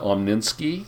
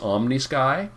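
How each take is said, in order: First: An extra n sound comes before the sky ending. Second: No n sound comes before the sky ending. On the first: The speaker calls it wrong. "It's not Omninsky" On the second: The speaker calls it right. "It's Omnisky"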